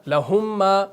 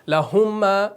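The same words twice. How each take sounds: The two takes are said the same way.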